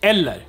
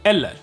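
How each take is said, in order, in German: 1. Die Endung -er in „eller“ wird voll ausgesprochen. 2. Die Endung -er in „eller“ wird voll ausgesprochen.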